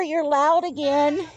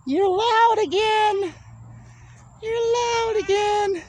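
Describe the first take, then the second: First: Slower, higher teasing coo; a touch of sing-song pet talk. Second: Much higher, slow sing-song tease; high cooing pet voice. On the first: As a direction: gently tease a noisy pet. Teasing noisy goat. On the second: Teasing noisy goats. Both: Real, not acted.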